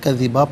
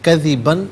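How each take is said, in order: First: The word ends with an open 'a' vowel. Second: The word ends with an 'n' sound. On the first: The reader stops at this word. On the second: The reader continues without stopping.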